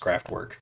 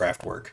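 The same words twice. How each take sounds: First: It is said with an American pronunciation. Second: It is said with an American pronunciation.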